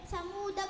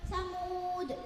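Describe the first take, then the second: First: The word ends on a short a vowel. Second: The word ends on a bare d consonant. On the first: The reciter continues into the next word. "Jika wasol dibaca pendek" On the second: The reciter stops after this word. "Jika wakaf dalnya dibaca sukun"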